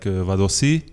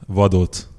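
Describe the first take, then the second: First: The surname is said in a Hong Kong form. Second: The surname is said in its original form. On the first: "almost in Hong Kong, everybody's pronounced like Vadossi" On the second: "Krisztián Vadócz"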